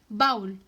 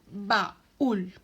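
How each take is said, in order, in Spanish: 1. La a y la u se unen en una sola sílaba. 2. La u es tónica, separada de la a. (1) "no decimos baúl" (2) "como la U se hace fuerte en nuestra pronunciación"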